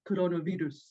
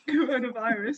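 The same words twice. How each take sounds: First: It is said with a Spanish pronunciation. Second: It is said with an English pronunciation. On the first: The speaker calls it right. "they say like coronavirus" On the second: The speaker calls it wrong. "rather than coronavirus"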